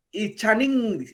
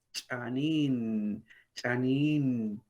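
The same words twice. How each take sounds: First: "chanin" ending in a hard, nasal ng; hard final n. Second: "chanin" slow and low with a gentle final n; soft final n. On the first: Teacher showing the wrong Kaqchikel n. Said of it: "y no es chanin". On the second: Teacher modelling correct Kaqchikel pronunciation. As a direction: stretch "chanin" softly, the right way. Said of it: "es chanin". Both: Shown as a demonstration.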